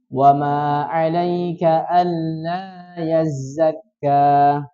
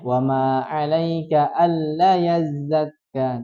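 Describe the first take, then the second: First: The vowel in 'alla' is held long. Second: The vowel in 'alla' is held short. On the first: The speaker calls it right. "Jadi yang betul kita baca" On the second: The speaker calls it wrong. "Allah tadi terbaca pendek"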